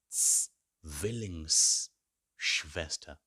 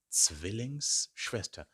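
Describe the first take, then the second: First: Zwillingsschwester stretched out syllable by syllable; Zwillingsschwester, extremely slow and clear; very slow model word. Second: Zwillingsschwester at a steadier, quicker pace, still careful; clear model word. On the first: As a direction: sound out Zwillingsschwester very slowly. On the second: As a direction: repeat Zwillingsschwester at near-normal pace. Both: Shown as a demonstration. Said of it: "Try saying it".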